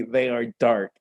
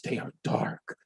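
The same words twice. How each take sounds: First: Said in the usual way. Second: Hushed, unvoiced whisper on they are dark. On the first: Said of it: "repeat of the same line". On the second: Shown as a demonstration. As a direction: breathe it like a dark secret. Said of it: "spooky contrast on repeat".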